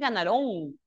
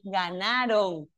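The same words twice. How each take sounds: First: The stress is on the last syllable. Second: The stress is on the second-to-last syllable. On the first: The speaker calls it wrong. "no es ganaron" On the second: The speaker calls it right. "es grave"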